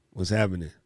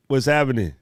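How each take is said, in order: First: "What's happening?" lower and softer; softer repeat. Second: Said in the usual way. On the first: Real, not acted. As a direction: echo the greeting quietly.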